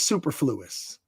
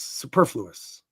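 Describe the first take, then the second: First: It is said the way the spelling suggests. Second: It is said with its usual pronunciation. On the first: The speaker calls it wrong. "when you read it, it looks like it says superfluous" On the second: The speaker calls it right. "but it's superfluous"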